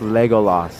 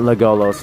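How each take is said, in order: First: The final syllable sounds like 'las'. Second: The final syllable sounds like 'los'. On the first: The speaker calls it right. "It's Legolas, right?" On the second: The speaker calls it wrong. "Not Legolos"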